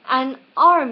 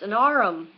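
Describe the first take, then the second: First: The word arm is said as one syllable. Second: The word arm is stretched into two syllables.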